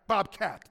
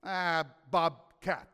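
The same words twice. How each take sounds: First: "Bobcat" said crisp and louder, settled; firm final naming. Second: Slow, stretched "Ah, bobcat"; drawn-out discovery. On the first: God settles on the name, firm and pleased. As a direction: declare "Bobcat" with confidence. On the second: God finds the name, slow realization. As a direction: stretch "bobcat" as the idea dawns. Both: Pretend. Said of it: "That's better".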